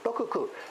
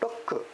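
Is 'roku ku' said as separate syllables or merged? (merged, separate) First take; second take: separate; merged. First: Both ku syllables are said fully and separately. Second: The two ku syllables merge into one clipped sound. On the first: "they don't say doku, ku" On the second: "They elide them"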